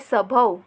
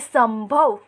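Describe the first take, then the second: First: The first syllable has no nasal sound. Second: The first syllable has a nasal sound. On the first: "शब्द दिया हुआ है" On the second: "ध्वनि सिर्फ नाक से ही निकल रही है"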